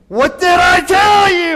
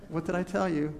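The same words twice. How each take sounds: First: It sounds stern and threatening. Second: It sounds calm and relaxed.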